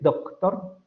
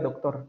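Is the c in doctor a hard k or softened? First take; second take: hard k; softened. First: The c is a full, hard k sound. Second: The c is softened, not a full k. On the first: Almost no one actually says it this way. The speaker calls it wrong. "nadie dice doctor" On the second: This is how people usually say it. The speaker calls it right. "lo más probable es que uno diga doctor"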